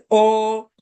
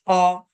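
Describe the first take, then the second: First: "O" as a long, closed oh; "O" drawn out, loud and steady; correct vowel. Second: "O" as an open aw; "O" opened to aw for contrast; wrong vowel. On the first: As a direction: hold "O" as a rounded oh, undotted. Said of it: "not O". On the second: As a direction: show the mistaken dotted "O", like aw. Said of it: "O is when there is a dot". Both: Shown as a demonstration.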